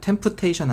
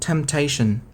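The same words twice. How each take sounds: First: The p sound is clearly pronounced in the word. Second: The p sound is silent in the word. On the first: The speaker calls it wrong. "아닙니다" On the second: The speaker calls it right. "P는 묵음이야"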